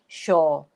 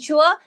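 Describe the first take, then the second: First: The vowel is a plain 'or' sound. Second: The vowel is a gliding 'ua' sound. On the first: "replaced with the or sound, and it becomes sure" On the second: "the sound ua, as in sure"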